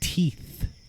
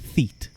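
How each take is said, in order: First: The word begins with a t sound. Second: The word begins with an f sound. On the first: The speaker calls it right. "There. Is that better?" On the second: The speaker calls it wrong. "I'll pronounce it in a weird way... Now it sounds like I'm saying feet"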